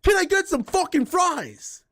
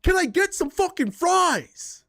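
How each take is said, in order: First: High, slow mock demand for fries; mock rude demand. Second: High, slow snarl for fries; mock rude demand. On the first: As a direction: imitate the rude customer once more, drawn out. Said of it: "a McDonald's worker and be like". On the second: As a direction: mimic a rude customer, drawn out and high. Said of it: "imagine going to a worker and being like".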